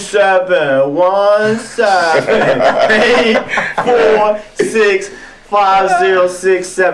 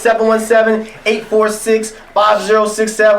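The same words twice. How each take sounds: First: The number is said at a slow pace. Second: The number is said at a fast pace.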